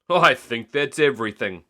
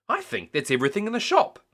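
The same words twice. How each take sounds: First: Daddy Pig. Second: Higher and fast, shopkeeper voice; Miss Rabbit. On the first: Daddy Pig pleased with the full trolley, plain. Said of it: "said Daddy Pig". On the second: Miss Rabbit teasing about the bought-out shop, higher and fast. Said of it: "said Miss Rabbit". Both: A narrator's reading.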